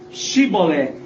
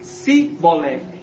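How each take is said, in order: First: The word begins with an 'sh' sound. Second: The word begins with an 's' sound. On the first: This is the correct password. The speaker calls it right. "eles tinham que falar o código certo" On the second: This marks the speaker as an outsider. The speaker calls it wrong. "quem falasse errado era morto"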